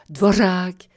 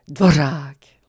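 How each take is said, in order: First: The r is a trill with a hiss. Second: The r is a trill with a hiss.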